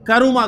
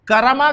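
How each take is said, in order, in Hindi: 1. बीच के अक्षर में स्वर u है। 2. बीच के अक्षर में स्वर a है। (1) "बल्कि करुमा कहता है" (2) "ना तो करमा कहता है"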